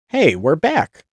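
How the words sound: It is said in a deep, unladylike voice. "that's not a right voice for a lady"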